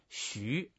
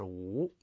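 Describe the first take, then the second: First: The syllable is pronounced xu. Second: The syllable is pronounced wu. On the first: This is the character's own basic reading. "实际上他这个字本身念徐" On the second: Here the character means blessing. "在这儿呢就应该念这个第二个音，就是无"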